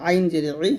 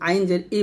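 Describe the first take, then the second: First: ই squeezed from the throat; pressed ain. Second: ই as a plain light vowel, no throat; ain as hamza. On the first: Teacher showing pupils the right ain, pressed from the throat. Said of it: "চাপ দিয়ে বলবেন". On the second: Teacher showing pupils the mistake, ain left unpressed. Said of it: "হামজা মতো বলবেন না". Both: Shown as a demonstration.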